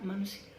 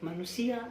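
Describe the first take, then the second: First: The word is said somewhat more quietly. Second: The word is said at its loudest. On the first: This is the first echo. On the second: This is the original sound.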